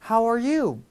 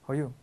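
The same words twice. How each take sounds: First: Each word is articulated clearly but flows smoothly. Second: The words are mumbled together and hard to make out. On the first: The speaker calls it right. "또박또박 흐르듯이" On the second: The speaker calls it wrong. "이거는 아무도 못 알아듣는 그냥 안 좋은 발음일 뿐이에요"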